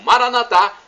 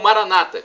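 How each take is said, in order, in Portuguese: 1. A tônica cai na última sílaba. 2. A tônica cai antes da última sílaba. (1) "como dissemos nós católicos" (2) "como dizem nossos irmãos separados, os evangélicos ou protestantes"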